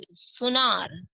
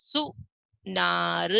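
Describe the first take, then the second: First: Said in the usual way. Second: सुनार stretched slowly; slow first take. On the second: Shown as a demonstration. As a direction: sound out सुनार. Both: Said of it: "इनको हम पढ़ेंगे।".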